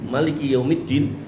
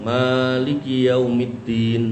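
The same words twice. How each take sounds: First: The first vowel of Maliki is kept short. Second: The first vowel of Maliki is drawn out long. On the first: The greatest king of the Day of Judgment. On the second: The one who truly owns the Day of Judgment.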